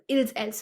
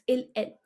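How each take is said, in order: First: The final s sound is pronounced. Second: The final s sound is silent. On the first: The speaker calls it wrong. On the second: The speaker calls it right. "I don't pronounce the s"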